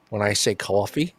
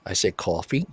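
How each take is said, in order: First: Said in the usual way. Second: Coffee said as kaw-fee with a long open aw; Philly kaw-fee, rounded open vowel; South Philly coffee. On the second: Shown as a demonstration.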